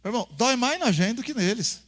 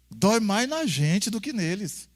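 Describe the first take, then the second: First: Said in the usual way. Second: Slow, weighty. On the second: Shown as a demonstration. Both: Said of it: "repetição".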